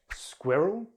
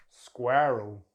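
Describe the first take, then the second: First: "Squirrel" as SKWIRR-ul, short i; British two-syllable "Squirrel", tune rising; British pronunciation. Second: "squirrel" as SKWUR-ul; American "squirrel" with r-coloured vowel; American pronunciation. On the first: Teacher contrasts accents, "Squirrel" as SKWIRR-ul. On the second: Teacher contrasts accents, "squirrel" as SKWUR-ul. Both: Shown as a demonstration. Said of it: "British English or American English".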